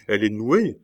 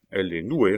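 First: Louder, astonished cry of delight; thrilled, disbelieving echo; joyful exclamation. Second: Said in the usual way. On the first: A narrator's reading. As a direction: exclaim it as wonderful news. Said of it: "s'écria Cornélius". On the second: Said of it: "répéta Rosa".

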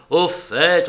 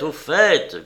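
First: Loud, higher angry snap; furious shout. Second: Loud insistent repeat, dropping at the end; furious shout, falling. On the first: José furiously cutting off the rambling old woman. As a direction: cut her off in a rage. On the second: José repeating his furious demand to the old woman. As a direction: hammer the demand home. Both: Acted. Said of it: "cria José furieux".

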